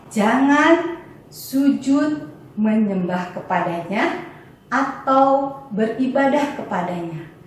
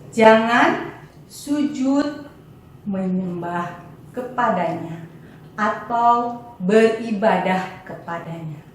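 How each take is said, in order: No difference in how they are said.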